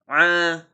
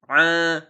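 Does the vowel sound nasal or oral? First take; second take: nasal; nasal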